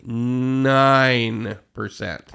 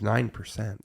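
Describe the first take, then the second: First: It is said slowly. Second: It is said at normal speed.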